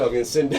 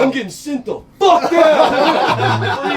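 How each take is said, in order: First: Said in the usual way. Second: Much higher, louder, slow, laughing mock panic; panicked yell. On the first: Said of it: "Sure as shit". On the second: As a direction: wail it out, half laughing. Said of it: "I'm like".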